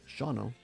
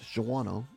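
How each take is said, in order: First: The name is given its local pronunciation. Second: The name is given its common outsider pronunciation. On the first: The speaker calls it right. "it's pronounced Shawano" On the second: The speaker calls it wrong. "not Shawano, as many people say"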